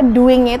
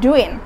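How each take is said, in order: First: The final g sound is pronounced. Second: The final g sound is dropped.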